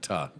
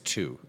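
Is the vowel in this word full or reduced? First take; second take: reduced; full. First: The word has a reduced uh vowel. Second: The word has a full oo vowel. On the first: The speaker calls it wrong. "The word is not ta. I think that's the Chicago pronunciation" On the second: The speaker calls it right. "It's to"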